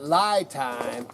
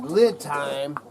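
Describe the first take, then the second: First: The first syllable sounds like 'lie'. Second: The first syllable sounds like 'lid'. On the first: The speaker calls it wrong. "I've been calling it lie time" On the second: The speaker calls it right. "it's actually lid time from lithium"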